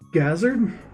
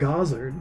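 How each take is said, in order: First: The first syllable does not sound like 'god'. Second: The first syllable sounds like 'god'. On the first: "I was calling it Gazard" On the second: "that sounds so much nicer when he says it like that"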